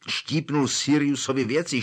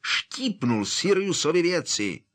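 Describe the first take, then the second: First: Said in the usual way. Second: High, exploding indignant cry; angry outburst. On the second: Acted. Harry explodes inside the pub, high outraged outburst. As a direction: burst out, outraged. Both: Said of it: "Harry rozčileně vybuchl".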